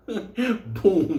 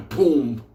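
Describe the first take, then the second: First: High, laughing boom. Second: Said in the usual way. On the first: Retold or imitated. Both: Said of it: "repeated sound".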